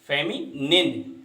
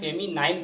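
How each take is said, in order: First: The last syllable is a short 'nin'. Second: The last syllable rhymes with 'nine'. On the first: The speaker calls it right. "नाइन नहीं, निन" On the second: The speaker calls it wrong. "इसको हम फेमिनाइन कह देते हैं, तो इसको हमें सुधारना है"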